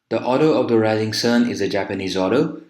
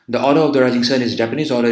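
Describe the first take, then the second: First: It is spoken at a normal, natural speed. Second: It is spoken at a very fast speed. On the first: The listener can follow easily. The speaker calls it right. "Now this is natural" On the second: The speaker is deliberately rushing. The speaker calls it wrong. "if I were to speak this very fast like this"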